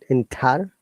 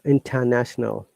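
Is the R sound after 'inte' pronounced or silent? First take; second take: pronounced; silent. First: The R after 'inte' is pronounced. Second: The R after 'inte' is silent. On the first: The speaker calls it wrong. "not inter" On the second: The speaker calls it right. "Remember, it's British English. We do not pronounce R"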